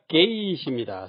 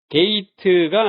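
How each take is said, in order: First: It ends clipped, with no extra syllable. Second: It ends with a full extra 'teu' syllable. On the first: The speaker calls it right. "영어답습니다" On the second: The speaker calls it wrong. "아니라"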